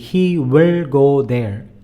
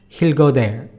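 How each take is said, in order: First: He and will are said as separate words. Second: He and will are shrunk into one syllable. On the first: Everything is said out fully. "But if you have to say everything" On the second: This is casual spoken language. "when you speak, we are going to shrink that he and will will become he'll"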